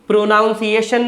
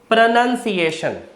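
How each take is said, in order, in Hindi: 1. दूसरा अक्षर 'noun' जैसा सुनाई देता है। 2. दूसरा अक्षर 'nun' जैसा सुनाई देता है। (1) "नहीं"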